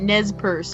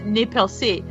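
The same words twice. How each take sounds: First: The name is said with an English pronunciation. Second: The name is said with a French pronunciation. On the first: This is how most people say it. The speaker calls it wrong. "they pronounce it Nez Perce" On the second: This is the original French way of saying it. The speaker calls it right. "it's properly pronounced Nez Perce"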